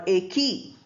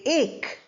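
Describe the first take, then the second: First: A vowel is sounded after the k. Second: The word ends on the k sound. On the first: The speaker calls it wrong. "or A key" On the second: The speaker calls it right. "We say ache"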